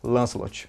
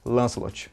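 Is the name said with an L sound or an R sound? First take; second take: L sound; L sound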